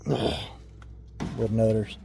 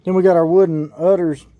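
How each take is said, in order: First: Slow, soft, sighing murmur; sighing repeat. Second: Said in the usual way. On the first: Real, not acted. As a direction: sigh and drawl the name out softly. Repeats the name after a sigh.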